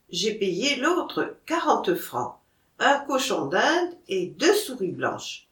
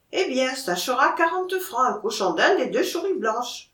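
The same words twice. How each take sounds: First: Said in the usual way. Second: Auvergnat peasant seller, s turned to sh; higher-pitched Auvergnat haggling, "souris" as "chouris"; Auvergnat accent. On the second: Acted. Monkey seller names his price to the buyer, Auvergnat accent.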